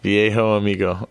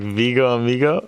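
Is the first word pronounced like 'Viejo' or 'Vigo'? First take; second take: Viejo; Vigo. First: The first word sounds like 'vee-ay-ho'. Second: The first word sounds like 'vee-go'. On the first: The speaker calls it right. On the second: The speaker calls it wrong.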